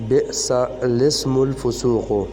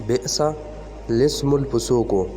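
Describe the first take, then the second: The two takes are said the same way.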